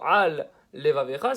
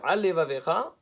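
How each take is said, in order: First: A short pause separates the two words. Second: The two words run together without pause. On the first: Two separate words are heard. The speaker calls it right. "ça veut dire quelque chose" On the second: It sounds like one meaningless word. The speaker calls it wrong. "ça ne veut rien dire"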